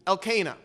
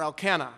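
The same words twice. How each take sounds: First: "Elkanah" said el-KAY-nah, stress on the long KAY; "Elkanah" with a long a in the middle syllable, el-KAY-nah. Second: "Elkanah" said EL-kan-ah, stress on EL, with a short nasal a; "Elkanah" with a short flat a in the middle, EL-kan-ah. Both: Shown as a demonstration. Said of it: "He pronounced it all that".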